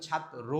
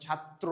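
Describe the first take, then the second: First: ছাত্র as "chhat-ro", single t and bare "ro"; wrong pronunciation. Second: ছাত্র as "chhat-tro", doubled t; correct pronunciation. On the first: Teacher citing what you don't say, ছাত্র as "chhat-ro". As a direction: drop the second t in ছাত্র. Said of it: "ছাত্র বলেন না". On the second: Teacher confirming what you say, ছাত্র as "chhat-tro". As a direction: finish ছাত্র on a full "tro". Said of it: "এটাই বলেন". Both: Shown as a demonstration.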